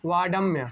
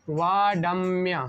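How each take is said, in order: First: Said in the usual way. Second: वाडम्य stretched syllable by syllable; very slow, careful वाडम्य for learners; slow pronunciation demo. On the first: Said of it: "तो क्या हो जाएगा?". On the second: Shown as a demonstration. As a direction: draw out वाडम्य, long वा and held म. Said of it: "क्या होगा?".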